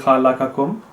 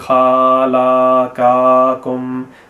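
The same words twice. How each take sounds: First: It is slow, with the early vowels equally short. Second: The early vowels are stretched out longer than needed. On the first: The speaker calls it right. "I read it quite slowly, ... because khala and ka have the same length" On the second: The speaker calls it wrong. "you decided to prolong them, so you said"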